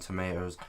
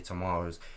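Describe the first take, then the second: First: It is said with an American pronunciation. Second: It is said with a British pronunciation.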